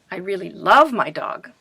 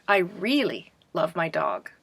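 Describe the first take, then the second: First: "love" punched louder, with a pitch peak; stress on LOVE. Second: "really" stretched out, "love my dog" falling away; stress on REALLY. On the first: Teacher showing class how to emphasize meaning, stressing "love". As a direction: hit the word "love" hard. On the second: Teacher showing class how to emphasize meaning, stressing "really". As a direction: lean long on the word "really". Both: Shown as a demonstration. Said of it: "you will stress certain words".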